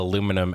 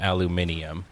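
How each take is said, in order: First: It is said the American way, four syllables. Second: It is said the British way, five syllables.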